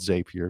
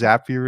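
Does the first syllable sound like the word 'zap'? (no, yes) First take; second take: no; yes. First: The first syllable does not sound like zap. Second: The first syllable sounds like the word zap. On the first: It is the popular form many people use. "many people call it Zapier because it sounds better" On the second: It names the product after the Zaps it makes. "Zapier is the official correct name because that's what you create. You create Zaps"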